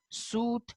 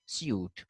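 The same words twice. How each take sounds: First: Suit as "soot" with long oo; no y glide in suit; American pronunciation. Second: Suit as "syoot"; y glide after the s in suit; British pronunciation. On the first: Teacher showing how they say it, American "soot" for suit. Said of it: "So they say". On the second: Teacher contrasting the Britishers, British "syoot" for suit. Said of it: "while the Britishers say". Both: Shown as a demonstration.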